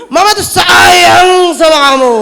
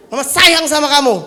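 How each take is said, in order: First: High, slow shout of "sayang", louder; raised-pitch shout. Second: Mother declaring love. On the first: Shown as a demonstration. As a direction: yell the loving words at the child. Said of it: "Tapi pitch control-nya naik". (teriakan tinggi dan lambat "Mama tuh sayang sama kamu") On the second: Acted. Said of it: "pura-pura jadi anak saya".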